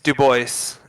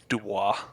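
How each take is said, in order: First: The name is said with the local pronunciation. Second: The name is said with its original pronunciation. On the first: This is how the townspeople say it. "it's Dubois is how they pronounce it" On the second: This is how it is supposed to be said. "if you were pronouncing it how it's supposed to be pronounced"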